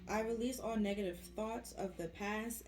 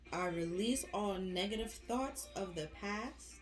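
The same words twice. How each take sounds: First: It is spoken at a normal, quicker pace. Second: It is spoken at a noticeably slower pace.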